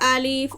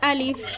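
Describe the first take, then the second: First: The vowel is drawn out long. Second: The vowel is kept short, without drawl. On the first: The speaker calls it wrong. "আলিফ অথবা আলিফ এভাবে বলবেন না" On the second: The speaker calls it right. "আলিফ উচ্চারণ করতে কোনো টান দিবেন না"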